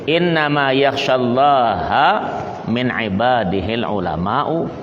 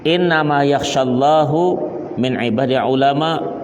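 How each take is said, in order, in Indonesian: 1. Kata "Allah" diakhiri dengan vokal "a". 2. Kata "Allah" diakhiri dengan vokal "u". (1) "Asal bahasa itu" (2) "itu terbalik bacanya. Ya, itu syadzah namanya"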